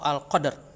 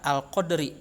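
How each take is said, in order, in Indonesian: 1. Kata ini diakhiri tanpa vokal akhir. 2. Kata ini diakhiri dengan vokal akhir yang penuh. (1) "atau Al-Qadr" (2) "Itu tidak dibaca Al-Qadri"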